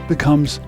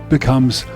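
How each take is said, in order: The two takes are said the same way.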